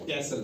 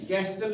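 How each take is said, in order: First: कैसल with S straight into L; silent T. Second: कैस्टल with a hard T after S; T pronounced. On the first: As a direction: leave the T out of कैसल. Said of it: "कैसल पढ़ते हैं". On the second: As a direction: sound the T in कैस्टल. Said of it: "नहीं पढ़ते हैं इसको". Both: Shown as a demonstration.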